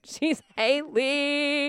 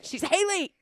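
First: Very slow, drawn-out sing-song; sing-song cadence. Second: Said in the usual way. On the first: Shown as a demonstration. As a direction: stretch it into a lilting cadence. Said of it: "I'm giving too much of a, of a cadence there". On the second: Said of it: "let's say it again".

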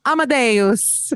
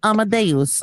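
First: High, drawn-out mock-Italian title; Italian accent. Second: Lightly attempted pop-star impression; a hint of a put-on celebrity pronunciation; a pop star. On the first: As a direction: say it slowly with a playful Italian accent. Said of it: "that famous Italian film". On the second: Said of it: "as Lady Gaga would say it".

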